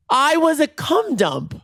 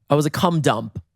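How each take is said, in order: First: High, drawn-out theatrical lament; melodramatic wail. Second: Said in the usual way. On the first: Pretend. Dumped storyteller lamenting to listeners, high melodramatic wail. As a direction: stretch it out slowly, pitched way up.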